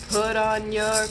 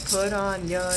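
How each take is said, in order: Both takes have the same delivery.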